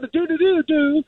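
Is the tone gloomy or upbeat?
upbeat. It sounds cheerful and upbeat.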